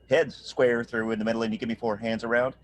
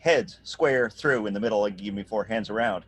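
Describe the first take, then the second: First: The accents fall on off-beat vowels. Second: The accents fall on the beat. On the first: The speaker calls it right. "the vowel that is off the beat is getting the accent" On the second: The speaker calls it wrong. "rather than saying"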